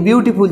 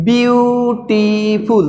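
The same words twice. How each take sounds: First: Said in the usual way. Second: "বিউটিফুল" very slowly in three stretched parts, বিউ-টি-ফুল; syllable by syllable. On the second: Shown as a demonstration. Teacher counting syllables for pupils, "বিউটিফুল" slowly broken into three. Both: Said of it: "তিন syllable".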